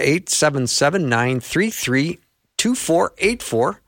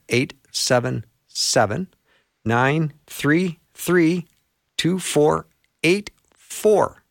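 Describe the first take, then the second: First: The number is said at normal speed. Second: The number is said more slowly.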